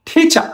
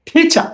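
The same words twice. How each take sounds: Both takes have the same delivery.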